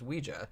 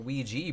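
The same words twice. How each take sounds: First: The word ends with an 'ah' sound. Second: The word ends with an 'ee' sound. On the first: The speaker calls it right. "what I always thought was the correct pronunciation" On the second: The speaker calls it wrong. "why people started calling it a Ouija board"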